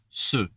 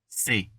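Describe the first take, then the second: First: The word sounds like 'suh' with a neutral vowel. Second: The word sounds like 'say' with a clear vowel. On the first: The speaker calls it right. "but it's ce" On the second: The speaker calls it wrong. "tempting to pronounce it like c'est"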